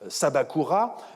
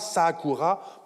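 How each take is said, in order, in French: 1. Le nom garde un 'b' plein au milieu. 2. Le nom n'a pas de consonne au milieu, seulement un 'a' long. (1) "une conservatrice" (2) "prononciation innovatrice"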